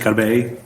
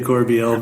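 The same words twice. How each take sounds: First: The name is pronounced the French way. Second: The name is pronounced the English way. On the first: This is the original, proper form of the name. "the proper way is actually Corbeil" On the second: This is how the family usually says it. "We say Corbeil"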